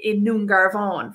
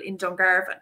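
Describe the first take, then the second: First: In Nungarvan, with the N replacing the D at the start; eclipsed form. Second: Said in the usual way. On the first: Shown as a demonstration. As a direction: say Nungarvan with a clear N sound at the front, the Irish eclipsis. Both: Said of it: "we just add it to the front".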